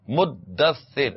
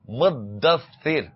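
First: The middle consonants are held long and doubled. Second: The middle consonants are held long and doubled.

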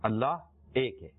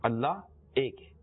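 Both takes have the same delivery.

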